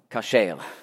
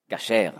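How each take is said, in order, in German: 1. Der erste Vokal ist ein 'a'-Laut. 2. Der erste Vokal ist ein 'a'-Laut.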